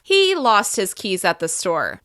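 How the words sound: The word he is stressed. It was this man, not someone else. "When I increase my pitch on the word he"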